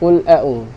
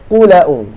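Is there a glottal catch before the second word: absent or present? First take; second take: present; absent. First: The l has no vowel and a glottal catch follows. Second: The l takes the vowel, with no glottal catch. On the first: "Qul a'u ni bila mana lam yang mati, huruf yang mati bertemu dengan hamzah" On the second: "Bila pindah baris, baris hamzah ni dia pergi sini. Dan hamzah tu tak ada"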